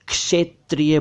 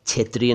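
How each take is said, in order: First: क्षेत्रीय said as "kshe-triya"; correct pronunciation. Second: क्षेत्रीय said quickly as "chhetriya"; mispronounced क्षेत्रीय. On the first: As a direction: clear k-sh onset on क्षेत्रीय. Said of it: "देखिए". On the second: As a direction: start क्षेत्रीय with chh. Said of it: "नहीं कह रहा हूँ". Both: Shown as a demonstration.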